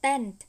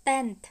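The two takes are said the same way.

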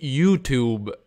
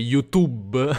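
First: It is pronounced the original English way. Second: It is pronounced the Italian way. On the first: The speaker does not sound Italian. The speaker calls it wrong. "se pronunci YouTube bene, non sei italiano" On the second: The speaker sounds like a real Italian. The speaker calls it right. "se vuoi essere davvero italiano devi dire YouTube"

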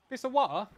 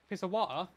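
First: It is said in a put-on British accent. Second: It is said in the speaker's usual American accent.

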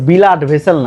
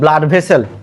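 First: An extra vowel splits the b and l. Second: Blood begins with a tight bl cluster. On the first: The speaker calls it wrong. "তোমাদের মতো কিন্তু বিলাড vessel না" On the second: The speaker calls it right. "এটা কিন্তু ব্লাড vessel"

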